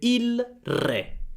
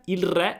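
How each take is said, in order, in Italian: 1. La frase si dice lentamente. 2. La frase si dice velocemente. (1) "Se parlo lentamente" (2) "Ma più veloce"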